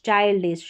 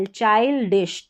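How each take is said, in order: First: Said in the usual way. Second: चाइल्डिश slowly split as "chail, dish"; slow teaching take of चाइल्डिश in two parts; syllable-by-syllable demo. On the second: Shown as a demonstration. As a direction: break चाइल्डिश before "dish". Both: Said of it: "इस तरीके से".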